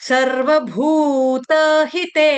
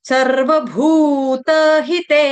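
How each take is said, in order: No difference in how they are said.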